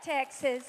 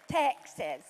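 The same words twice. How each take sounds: First: Said in the usual way. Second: Lower, playful Southern "Texas"; imitated Southern accent. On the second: Pastor fondly imitating a guest's accent, playful Southern drawl. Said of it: "Love that Southern accent".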